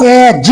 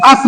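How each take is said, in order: First: एज split into "e" and a final "j"; एज, front vowel then voiced j; correct reading of as. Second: अस with "uh" and a hissed s; अस, short vowel and final s; wrong reading of as. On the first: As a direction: say एज as "e-juh". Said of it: "इसको हम लोग एज पढ़ेंगे". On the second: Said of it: "अस नहीं पढ़ेंगे". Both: Shown as a demonstration.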